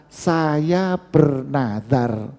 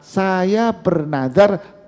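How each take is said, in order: First: "Saya bernazar" said slowly, each word weighed; slow spoken vow formula. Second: "Saya bernazar" drawn out slowly with a lift at the end; slow spoken vow formula. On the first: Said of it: "diucapkan dengan kata-kata". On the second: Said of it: "tidak diucapkan dengan kata". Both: Shown as a demonstration.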